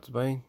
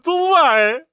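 First: The greeting is said quietly, mouth barely open. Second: The greeting is said loudly, mouth wide open.

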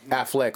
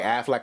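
First: The last syllable sounds like 'leck'. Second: The last syllable sounds like 'lack'. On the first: "like Fleck" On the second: "like the duck?"

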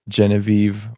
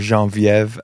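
First: The name is said with English pronunciation. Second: The name is said with French pronunciation.

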